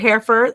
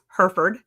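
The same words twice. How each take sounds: First: It is said in a non-Texan way. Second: It is said the way Texans say it.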